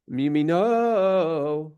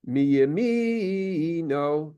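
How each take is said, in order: First: Mi yamino, slow, weight on the no of yamino; stress on the nun. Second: Mi yamino, slow, leaning on the first syllable of yamino; stress on the second mem. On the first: Teacher giving the correct cantillation stress for mi yamino. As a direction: land the stress late in mi yamino. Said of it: "because the cantillation is on top of the nun". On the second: Teacher showing the wrong stress on mi yamino. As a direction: draw out mi yamino with the weight early. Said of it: "Where the emphasis is on the second mem". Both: Shown as a demonstration.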